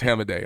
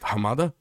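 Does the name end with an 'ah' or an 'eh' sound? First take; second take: eh; ah. First: The name ends with an 'eh' vowel. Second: The name ends with an open 'ah' vowel. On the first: The speaker calls it right. "it's Hamadeh" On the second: The speaker calls it wrong. "is it Hamada? No"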